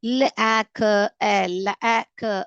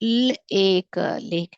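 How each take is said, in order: First: The vowel is a short 'a' sound. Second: The vowel is a long 'ay' sound. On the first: The speaker calls it wrong. "அப்படின்னு தப்பாக வரும்" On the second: The speaker calls it right. "இது இப்படிதான் படிக்கணும்"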